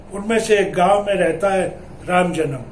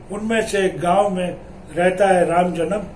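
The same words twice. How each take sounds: The two takes are said the same way.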